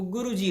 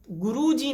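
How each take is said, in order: First: गुरुजी with a short उ in गु; the right गुरुजी, short उ on गु; correct pronunciation. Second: गुरुजी said the wrong way, with a long ऊ in गु; a mistaken गुरुजी with a stretched ऊ; wrong pronunciation. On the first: Teacher demonstrating the correct गुरुजी to students. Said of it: "वो गुरुजी होता है". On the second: Teacher demonstrating the wrong गुरुजी to students. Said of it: "नहीं होता है". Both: Shown as a demonstration.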